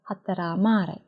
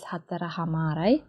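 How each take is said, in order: First: It is said fast, dropping the h sound. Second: It is said fully, keeping the h sound.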